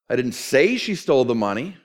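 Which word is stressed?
say. The stress falls on the word say. It is believed but was never said aloud. "I believe it, but you can't quote me on that"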